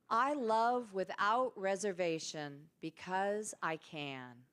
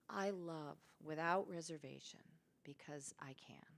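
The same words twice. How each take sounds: First: It is said loudly with energy and enthusiasm. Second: It is said aloud in a calm voice.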